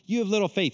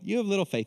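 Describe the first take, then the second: First: It is said harshly, like yelling. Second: It is said gently, with a smile.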